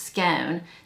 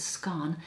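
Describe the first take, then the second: First: The word is said in a Texan way. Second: The word is said in an English way. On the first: "In Texas, we pronounce it as scone" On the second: "I think in England, they pronounce it as scone"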